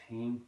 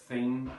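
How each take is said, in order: First: Put-on "teen" with hard T for TH; soft, slow "teen", T replacing TH; Southern Irish pronunciation. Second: Said in the usual way. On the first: Shown as a demonstration. Teacher contrasting Irish form, "teen" with T for TH. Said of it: "they're saying teen". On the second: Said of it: "instead of the theme".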